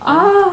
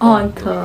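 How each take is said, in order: First: The word ends in a consonant. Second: The word has 'o' vowels. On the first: This is the Hindi form. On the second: This is the Bengali form.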